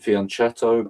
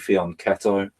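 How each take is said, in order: First: The word is said the common non-Italian way. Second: The word is said the Italian way. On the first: This is how some people say it. The speaker calls it wrong. "Some people say uh, pronounce it fianchetto" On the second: This is how Italians say it. The speaker calls it right. "it's actually fianchetto, according to Italians"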